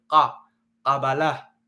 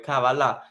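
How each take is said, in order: First: "ka, Kabbalah" slow, the "ka" hard and guttural from the back of the throat. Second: "Kabbalah" with a soft, light opening k and a soft b. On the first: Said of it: "correcta es fuerte". ("ka, Kabbalah" con una ka fuerte y gutural) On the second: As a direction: say "Kabbalah" gently, the first sound soft. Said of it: "con un sonido suave". ("Kabbalah" con sonido suave) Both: Shown as a demonstration.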